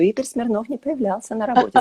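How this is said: It is said in a hushed, confidential tone. It is shared as a secret. "По секрету"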